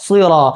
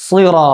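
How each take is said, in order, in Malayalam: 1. സ് ശബ്ദം കനത്തതും അനുരണനമുള്ളതുമാണ്. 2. സ് ശബ്ദം കനത്തതും അനുരണനമുള്ളതുമാണ്.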